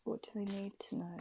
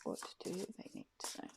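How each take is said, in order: First: Softer, quicker murmur of the question; fading ask. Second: Voiceless whisper of the question; whispered ask. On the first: Shuffling cards and asking them, a fading murmur. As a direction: let it drift away as you ask. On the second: Asking the tarot cards for a message, whispered. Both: Real, not acted.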